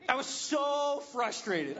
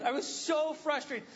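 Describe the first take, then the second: First: Laughing. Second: Said in the usual way. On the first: Retold or imitated.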